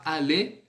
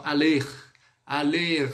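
First: "aller" with silent final R; correct pronunciation. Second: "aller" with the final R wrongly sounded; wrong pronunciation. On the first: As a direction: end "aller" on an open "ay", no R. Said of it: "Esse R aí, ó, on va pas parler". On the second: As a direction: mistakenly voice the R ending "aller". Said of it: "Eu não vou falar assim". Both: Shown as a demonstration.

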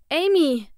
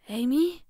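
First: Loud, higher-pitched urgent call. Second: Questioning call, rising in pitch; tentative call. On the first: Searching for sister in the house, calling loudly. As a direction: call the name right through the house. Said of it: "rief ich erneut". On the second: Searching for sister in the house, calling cautiously. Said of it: "rief ich leise hinein". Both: A narrator's reading.

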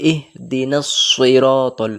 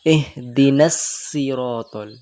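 First: সিরাতাল with a heavy, thick সদ, slowly; সিরাতাল with a full, rounded heavy s; correct pronunciation. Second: সিরাতাল with a thin সিন, slowly, as the mistake; সিরাতাল said light and thin, the wrong way; wrong pronunciation. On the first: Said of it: "এইভাবে পড়তে হবে". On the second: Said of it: "সিন পড়লে এইভাবে পড়তাম". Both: Shown as a demonstration.

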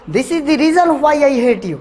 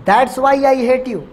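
First: Each word laid out slowly for learners; slow, clear teaching read. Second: Each word given slowly to the class; slow, clear teaching read. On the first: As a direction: spell it out slowly, a bit higher. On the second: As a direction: lay it out slowly and plainly. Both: Shown as a demonstration. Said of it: "दो तरीके से बोल सकते हो".

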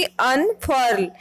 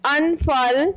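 First: अनफर्ल with a clear r sound, American style; अनफर्ल, rhotic American r; American pronunciation. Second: अनफर्ल with the r left silent, British style; अनफर्ल, non-rhotic British vowel; British pronunciation. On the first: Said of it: "American pronunciation में आर की sound आएगी". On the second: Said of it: "British pronunciation में आर silent हो जाता है". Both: Shown as a demonstration.

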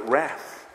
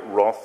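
First: "wrath" with the short A of "cat"; American pronunciation. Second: Said in the usual way. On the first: Shown as a demonstration. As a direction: say "wrath" the American way, rhyming with "math". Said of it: "they call it wrath". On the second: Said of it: "the Americans don't call it wrath".

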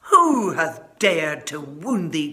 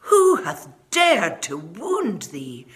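First: Slow, loud furious giant; enraged protective bellow; angry cry. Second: Slow, loud, outraged giant; a giant roaring at whoever hurt the child; angry demand. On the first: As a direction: roar it slowly, outraged. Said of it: "cried the giant". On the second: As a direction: thunder it out slowly in fury. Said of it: "his face grew red with anger". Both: Acted.

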